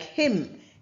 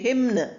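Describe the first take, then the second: First: The final N sound is silent. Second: The final N sound is pronounced. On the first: The speaker calls it right. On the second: The speaker calls it wrong.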